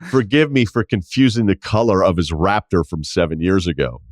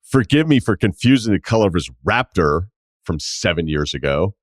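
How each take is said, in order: First: It is read in a plain, neutral tone. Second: It is read in a sarcastic, mocking tone.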